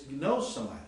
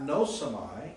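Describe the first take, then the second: First: The initial g sound is clearly pronounced. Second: The initial g sound is silent. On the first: The speaker calls it right. "You put the gamma in there" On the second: The speaker calls it wrong. "it's not nosamai"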